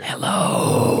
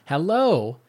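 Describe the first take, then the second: First: It is said in a scary, spooky voice. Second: It is said in a plain, low-energy way.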